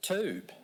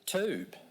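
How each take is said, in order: First: Tube in an American pronunciation. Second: The same.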